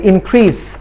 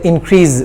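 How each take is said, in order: First: The consonant near the end is an s sound. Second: The consonant near the end is a z sound. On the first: The speaker calls it right. "increase with the sa sound, not za" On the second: The speaker calls it wrong. "most of us say increase, which is wrong"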